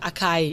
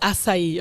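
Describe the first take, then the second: First: It is said with an English-style pronunciation. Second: It is said with a Portuguese pronunciation. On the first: This is how foreigners say it. The speaker calls it wrong. "Gringos are not they the name is not" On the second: This is how the name really goes. The speaker calls it right. "it's Açaí"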